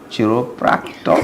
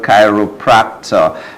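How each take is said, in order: First: The first syllable does not sound like 'Cairo'. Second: The first syllable sounds like 'Cairo'. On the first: The speaker calls it wrong. "I was calling it Chiro, Chiropractor. But that's not how it is pronounced" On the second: The speaker calls it right. "It is called chiropractor"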